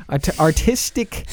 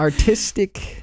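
First: Artistic stumbled, slow and rising; fumbled artistic. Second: Artistic said slowly and carefully, rising. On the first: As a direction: trip over artistic slowly. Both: Shown as a demonstration. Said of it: "What was that word again?".

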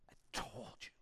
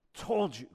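First: Breathy I-told-you-so whisper. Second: Said in the usual way. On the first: Retold or imitated. A disciple whispering smugly to the others after Judas walks out. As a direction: hiss it like a secret.

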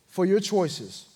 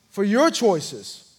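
First: Said in the usual way. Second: "your" leaned on, the phrase drawn out slowly; stress on YOUR. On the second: Retold or imitated. Preacher repeating the pastor's line that convicted him, slow stress on "your".

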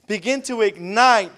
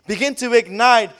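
Both takes have the same delivery.

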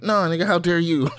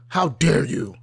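First: Higher, louder mock comeback; hammed-up indignant counterattack; indignant retort. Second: Affronted, acted-out disbelief; mock-incredulous outrage. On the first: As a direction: throw the accusation straight back, pitched up. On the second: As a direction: play offended at being accused. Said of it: "incredulous, just like".

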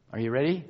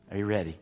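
First: Said in the usual way. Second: "Are you ready?" dropped much lower and softer, falling at the end; hushed repeat. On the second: Acted. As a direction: sink "Are you ready?" down to a near hush.

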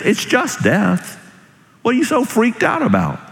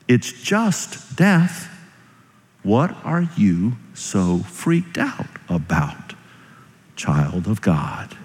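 First: High-pitched, incredulous challenge; exasperated challenge. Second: Slow, softened, measured questioning; gentle reassurance. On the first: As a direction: push it out high, as if baffled by the fear. First, exasperated take of song's message. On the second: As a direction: let each word settle slowly and quietly. Repeats the message slowly and softly. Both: Acted.

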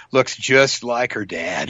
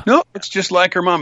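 First: Put-on slow, measured verdict on a child; lightly voiced onlooker. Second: Higher-pitched mock disagreement; contradicting onlooker. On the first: Onlooker commenting on a kid's looks, slow verdict. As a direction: draw it out as a lightly acted observation. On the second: Second onlooker disputing the resemblance, higher objection. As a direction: counter it in a lightly acted higher voice.

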